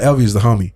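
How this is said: It is said in a casual, offhand tone. The person is only a casual acquaintance. "it makes it sound like you're kind of a kind of peripheral, casual friend"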